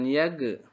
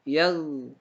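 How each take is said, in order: First: The final consonant is released with a bounce. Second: The final consonant is smooth, without a bounce. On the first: The speaker calls it wrong. "jangan yag" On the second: The speaker calls it right. "Jangan memantul"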